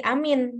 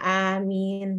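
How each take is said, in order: First: The vowel in the word is kept short. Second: The vowel in the word is held long. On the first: "yang namanya amin" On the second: "itu kan panjang"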